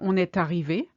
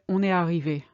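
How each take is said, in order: First: A t sound links est to arrivé. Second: No t sound links est to arrivé. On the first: "You can say" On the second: "we would say on est arrivé most of the time"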